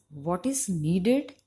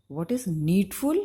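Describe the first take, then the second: First: "What is needed" said slowly and louder, every word weighted; correct phrase modelled. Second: "What is needful" said louder with a rise on "needful"; wrong phrase shown. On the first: Teacher models the correct phrase to the class, slow and emphatic. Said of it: "is effective". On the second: Teacher shows students the faulty phrase, louder with rising "needful". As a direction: lift "needful" at the end, louder. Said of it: "is not effective". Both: Shown as a demonstration.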